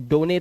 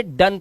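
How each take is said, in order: First: "डोने" as two syllables, doh-nay; wrong pronunciation. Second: "डन" with a short uh vowel; correct pronunciation. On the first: Teacher shows the misreading "डोने", wrong pronunciation. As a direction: misread done as "डोने" with a long O. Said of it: "डोने तो नहीं पढ़ते". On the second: Teacher models exception "डन", correct pronunciation. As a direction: say done as "डन", one syllable. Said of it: "इसे डन पढ़ते हैं". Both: Shown as a demonstration.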